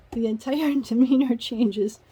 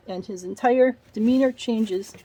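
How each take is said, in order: First: Real laugh breaking into "The entire demeanor changes". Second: Said in the usual way. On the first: Real, not acted. Reader laughs retelling the fiancé's turn, amused. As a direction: chuckle through the line in disbelief.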